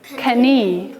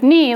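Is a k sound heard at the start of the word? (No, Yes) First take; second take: Yes; No. First: The word starts with a k then n sound. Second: The word starts with an n sound only. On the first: This is how the word was said long ago. "We used to say knee" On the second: This is how the word is said today. "Instead of knee"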